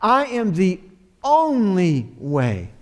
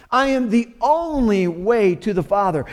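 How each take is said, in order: First: "only" drawn out slowly and leaned on, each word weighed; emphatic slow stress. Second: Said in the usual way. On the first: Shown as a demonstration. Pastor stressing Jesus' words to his congregation, slow and emphatic on "only". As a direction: linger on "only" to make it emphatic. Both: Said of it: "it's emphatic".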